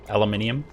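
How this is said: It is said the non-American way. "I think you pronounce it aluminium"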